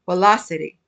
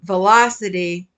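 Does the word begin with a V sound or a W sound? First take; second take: W sound; V sound. First: The word begins with a W sound. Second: The word begins with a V sound.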